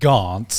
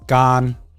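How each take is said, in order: First: The name ends with a T sound. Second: The name ends without a T sound. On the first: The speaker calls it wrong. "my name isn't actually like Gaunt" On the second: The speaker calls it right. "the Thai pronunciation of my name is Gan"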